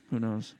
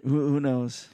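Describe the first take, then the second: First: Said in the usual way. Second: Chuckling through the words; laughing. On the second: Real, not acted. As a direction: laugh while asking it. Laughing at joke about being rich.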